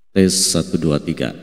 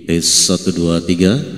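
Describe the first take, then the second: First: An echo is audible and the midrange is lower. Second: The midrange is strong and pushed forward. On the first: "bagian gema efeknya ada, cuman untuk bagian middle dan treble itu di bawah" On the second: "di bagian middle-nya sangat muncul sekali"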